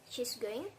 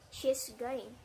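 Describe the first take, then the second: First: The voice rises at the end, asking confirmation. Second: The voice falls at the end, as a statement.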